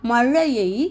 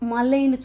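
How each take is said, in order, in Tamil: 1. நடுவில் உள்ள மெய் நாக்கு சுருண்ட zh ஒலி. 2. நடுவில் உள்ள மெய் சாதாரண l ஒலி.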